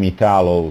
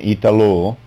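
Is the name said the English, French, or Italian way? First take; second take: English; French. First: The name is said with an English pronunciation. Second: The name is said with a French pronunciation. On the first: "And in English" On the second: "in French"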